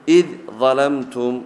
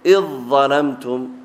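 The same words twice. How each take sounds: First: The dhal is pronounced clearly before the next letter. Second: The dhal merges fully into the following letter.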